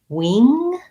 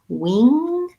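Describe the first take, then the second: The two takes are said the same way.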